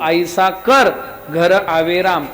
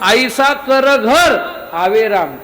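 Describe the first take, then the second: First: There is a break right after 'kar'. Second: There is a break right after 'ghar'. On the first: Do something so that Ram comes to your home. "असं काहीतरी कर की जेणेकरून राम तुझ्या घरी येईल" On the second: Make your home such that Ram comes into it. "आपलं घरच असं करा की जेणेकरून त्या घरामध्ये राम येईल"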